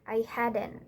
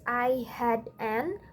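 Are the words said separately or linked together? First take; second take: linked; separately. First: The words run together as one word. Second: The words are said separately. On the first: "we pronounce it as" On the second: "This eighth question is"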